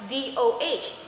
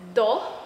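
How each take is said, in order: First: Each letter is named separately. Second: It is said as one whole word. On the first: The speaker calls it right. "but DOH, per initial" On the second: The speaker calls it wrong. "I did not pronounce it as DO"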